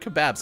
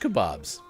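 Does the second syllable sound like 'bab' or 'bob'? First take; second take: bab; bob. First: The second syllable sounds like 'babs'. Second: The second syllable sounds like 'bobs'. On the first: "I've heard people pronounce it that way" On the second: "I've always said bobs"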